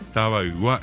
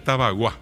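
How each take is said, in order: First: Both parts are said fully, ending in igua. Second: The parts merge into one shorter word. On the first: This is the original, older form of the name. The speaker calls it right. "Taba Igua era" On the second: This is how people say it nowadays. The speaker calls it wrong. "Hoy la gente ya dice Tabagua"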